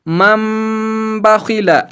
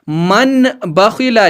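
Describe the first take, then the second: First: A nasalized m sound comes before the b. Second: A plain n sound comes before the b. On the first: The speaker calls it right. "पढ़ना है मम बखिला" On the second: The speaker calls it wrong. "लिखा था"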